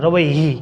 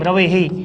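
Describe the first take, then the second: First: The word ends with an added 'hi' syllable. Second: The word ends with an added 'he' syllable. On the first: The speaker calls it right. "આવી રીતના જુઓ મિત્રો" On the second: The speaker calls it wrong. "તો મિત્રો આ ખોટું છે"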